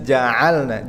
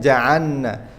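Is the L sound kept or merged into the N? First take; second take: kept; merged. First: The L is clearly held before the N. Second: The L disappears into a doubled N. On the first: The speaker calls it right. "Kita baca harus sukunya jelas" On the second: The speaker calls it wrong.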